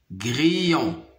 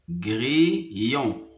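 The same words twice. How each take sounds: First: Said in the usual way. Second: "grillon" split as gri, pause, yon; syllable by syllable. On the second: Shown as a demonstration. Teacher locating a sound for pupils, "grillon" split apart. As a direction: separate the two syllables of "grillon". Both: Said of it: "dans la deuxième syllabe".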